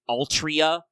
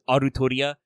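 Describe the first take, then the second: First: It is said as an English word, Al-tri-a. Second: It is said with Japanese syllables, A-ru-to-ri-a. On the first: "the way they write it in English" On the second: "the way they pronounce it in Japanese"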